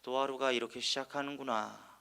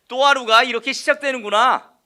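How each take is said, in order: First: It is said in a sighing, lamenting voice. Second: It is said in a bright, hopeful voice. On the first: The day begins negatively. The speaker calls it wrong. "너무나도 한탄 어린 목소리로" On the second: The day begins positively. The speaker calls it right. "긍정입니다"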